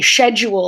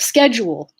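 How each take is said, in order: First: It is said in a British accent. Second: It is said in a North American accent. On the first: "when British people say schedule" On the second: "instead of schedule"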